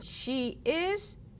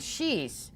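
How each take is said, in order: First: It is said as two separate full words. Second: It is said as one contracted word. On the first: "you hear my pronunciation, she is" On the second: "let's do another contraction"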